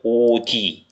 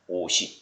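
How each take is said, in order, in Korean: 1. 두 번째 음절은 ㄷ 소리로 시작해요. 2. 두 번째 음절은 ㅅ 소리로 시작해요. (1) "이렇게 하면 틀린다는 얘기입니다" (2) "시옷이 그대로. 그대로 연음이 됩니다"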